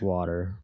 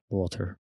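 First: It is said in an American accent. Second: It is said in a British accent. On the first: "they learn in American way mostly" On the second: "I think water is British"

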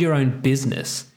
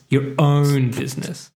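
First: The emphasis falls on the word business. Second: The emphasis falls on the word own. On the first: The speaker calls it wrong. "Business is not where you should be putting the emphasis" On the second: The speaker calls it right. "that's how you should say it"

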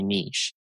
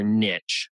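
First: It is said with a non-American pronunciation. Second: It is said with an American pronunciation. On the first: "So I say niche" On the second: "as they say here in America"

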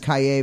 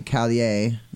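First: The name is said with a Y sound. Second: The name is said with an L sound. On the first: "that's like a Spanish twist on it. Taking the two L's and making it a Y" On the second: "in like Maine, we would say Kaye... With the L's"

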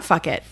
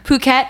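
First: It sounds like the phrase 'fuck it'. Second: It does not sound like 'fuck it'. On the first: The speaker calls it wrong. "it's not fuck it" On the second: The speaker calls it right. "Phuket, it's not fuck it"

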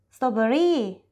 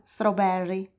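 First: It is said with a Thai pronunciation. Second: It is said with an English pronunciation. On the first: "per dire fragole dirà strawberry" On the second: "e non strawberry"

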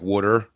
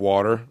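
First: The first vowel sounds like a double O. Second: The first vowel is a standard A sound.

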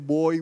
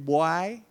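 First: It is said in a standard English accent. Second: It is said in a Belizean Creole accent. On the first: "We don't say boy" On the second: "we say boy"

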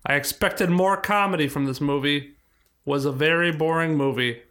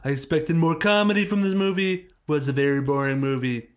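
First: It is read in the speaker's normal voice. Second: It is read imitating someone else's voice.

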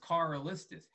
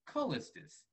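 First: The R after the first vowel is sounded. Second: The R after the first vowel is silent. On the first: This is the name as it was given. "So my name is pronounced Carllistus" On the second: This honors a brother who died before. "I pronounce my name with the silent R"

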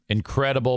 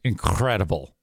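First: The R sound is plain and smooth. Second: The R sound is crisp and crackly.

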